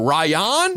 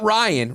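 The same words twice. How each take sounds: First: The name ends with an 'on' sound, 'Ryon'. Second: The name is said as the ordinary 'Ryan'. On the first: "But Ryan?"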